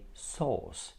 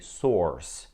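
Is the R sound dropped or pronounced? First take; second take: dropped; pronounced. First: The R sound is dropped after the vowel. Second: The R sound is pronounced after the vowel. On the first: The speaker calls it right. "we say sauce" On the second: The speaker calls it wrong. "We don't say source"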